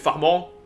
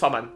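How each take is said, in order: First: The name ends with a French nasal vowel. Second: The name ends like the English word 'man'. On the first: "si on est en France, si je peux le prononcer Farman" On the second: "À l'anglaise, je sais qu'il prononce Farman"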